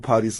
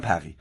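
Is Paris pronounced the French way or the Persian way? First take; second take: Persian; French. First: A Persian pronunciation with a clear final s. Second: A French pronunciation with a throaty r and no s. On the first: The speaker calls it wrong. "خواهش میکنم نگو پاریس" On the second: The speaker calls it right. "خود فرانسوی ها به پاریس میگن پقی"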